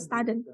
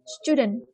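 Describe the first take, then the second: First: The first vowel sounds like in 'study'. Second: The first vowel sounds like in 'stew'. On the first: The speaker calls it wrong. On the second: The speaker calls it right.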